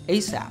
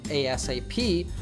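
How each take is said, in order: First: It is spoken as one single word. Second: Each letter is spoken separately. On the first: "or pronounce like a word" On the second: "we can say this acronym letter by letter"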